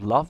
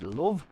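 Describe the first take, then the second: First: It is said in a standard British accent. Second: It is said in a Liverpool accent. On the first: "instead of" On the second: "they would say"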